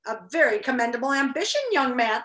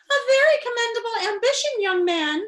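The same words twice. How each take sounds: First: Said in the usual way. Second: Put-on high, loud little old lady; squeaky little old lady voice; small old lady voice. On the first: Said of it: "Oh, wait, let me say that again". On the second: Shown as a demonstration. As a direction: redo it as a tiny old witch, pitched up. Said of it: "said a small voice from across the cell".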